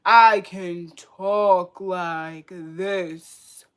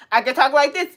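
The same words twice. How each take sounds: First: Very slow, lowered, drawn-out voice; put-on slow voice. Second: Said in the usual way. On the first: Shown as a demonstration. Showing viewers she can talk any way, exaggeratedly slow. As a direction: drag every word out, pitched down.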